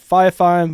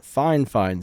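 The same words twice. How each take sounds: First: Fi Fine with the first word as "fie", no N; spelling pronunciation. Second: Fine Fine said as "fine, fine", an N ending both words; Fine Fine, the first word closed with an N; official pronunciation. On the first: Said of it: "I know it's spelled Fi Fine". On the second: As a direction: say Fine Fine as two identical rhyming words. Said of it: "but they pronounce it Fine Fine". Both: Shown as a demonstration.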